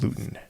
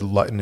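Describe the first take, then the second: First: The first syllable sounds like 'loo', long. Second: The first syllable sounds like 'lut', short. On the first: The speaker calls it right. "and not" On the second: The speaker calls it wrong. "I'm pronouncing it wrong"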